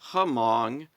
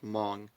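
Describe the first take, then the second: First: The H at the start is sounded. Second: The H at the start is silent. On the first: The speaker calls it wrong. "I pronounced it Hmong because it's spelled H M O N G" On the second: The speaker calls it right. "it turns out it's just Hmong"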